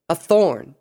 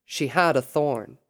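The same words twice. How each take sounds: First: THORN punched high and loud; indignant exclamation. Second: Said in the usual way. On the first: A narrator's reading. Luna fuming over the escaped captive, indignant. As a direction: burst out on "thorn" in frustration. Luna fumes in a bad mood.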